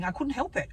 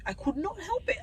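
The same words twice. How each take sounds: First: Said in the usual way. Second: NOT stressed, pitched higher; emphatic repeat. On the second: Real, not acted. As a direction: lift and hit the word not.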